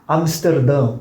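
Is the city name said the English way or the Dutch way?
Dutch. The name is said with Dutch sounds. The speaker calls it right.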